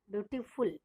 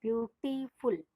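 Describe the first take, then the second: First: Said in the usual way. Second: beautiful slowly split into separate sounds; slow down and break beautiful apart; beautiful in slow, distinct syllable chunks; broken into syllables. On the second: Shown as a demonstration. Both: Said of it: "दो अलग अलग sound में बोल रहे हैं".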